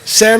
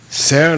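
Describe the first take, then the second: First: The word is said with a high tone. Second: The word is said with a low tone. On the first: It means gold. "Ser means gold" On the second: It means to claim. "Low tone means to claim"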